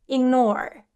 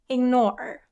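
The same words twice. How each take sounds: The two takes are said the same way.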